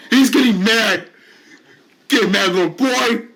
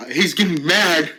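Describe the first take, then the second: First: Louder, higher gloating jeer; bully jeering at a patient getting angry; gleeful taunt. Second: Said in the usual way. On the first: Acted. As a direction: crow it out to provoke him.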